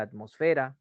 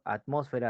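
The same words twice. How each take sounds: First: "atmosfera" as at-mos-FE-ra; "atmosfera" stressed on the next-to-last syllable; stress on penultimate syllable. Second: "atmósfera" as at-MÓS-fe-ra; "atmósfera" stressed on the second syllable. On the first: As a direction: say "atmosfera" with the weight on FE. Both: Shown as a demonstration. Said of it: "las formas de expresar".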